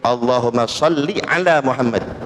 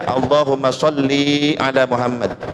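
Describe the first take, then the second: First: The last vowel of sholli is short. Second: The last vowel of sholli is drawn out. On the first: The speaker calls it right. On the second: The speaker calls it wrong. "Jangan dibaca ... membaca sholli panjang"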